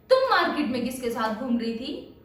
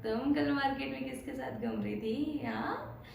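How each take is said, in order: First: Louder, stern scolding; scolding mother. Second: Playful teasing question; teasing friend. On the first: Mother scolds her daughter about the market, sharply. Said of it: "mummy पूछ रहे हैं।". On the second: Friend teases her about who she was with, playfully. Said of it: "आपको tease करते हुए पूछ रहे हैं". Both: Retold or imitated.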